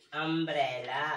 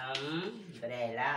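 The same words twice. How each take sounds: First: Said in the usual way. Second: "umbrella" stretched very slowly; slow, syllable-by-syllable "umbrella"; drawn-out umbrella. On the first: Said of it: "जगह छोड़ी है क्यों". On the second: Shown as a demonstration. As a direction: stretch out "umbrella" so the opening vowel is heard. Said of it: "Hindi के स्वर की पहली ध्वनि".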